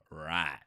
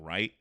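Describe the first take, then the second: First: The vowel is stretched and bent in a Southern way. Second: The vowel is said plainly, without Southern stretching. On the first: "it turns into right" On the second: "instead of saying right"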